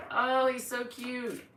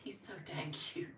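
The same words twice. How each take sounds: First: High, drawn-out cooing; slow, higher-pitched gush; gushing adoration. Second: Hushed, whispered fondness; barely voiced, doting aside; adoring whisper. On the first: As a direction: coo slowly over an adorable pet. Gushes over pet. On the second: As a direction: whisper it to yourself, smitten. Murmurs adoringly about pet. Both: Real, not acted.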